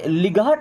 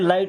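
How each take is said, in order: First: The g and h sounds are pronounced. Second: The g and h sounds are silent. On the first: The speaker calls it wrong. "इसे लिगाहट नहीं पढ़ते" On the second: The speaker calls it right. "यहाँ पे जी और एच दोनों silent है"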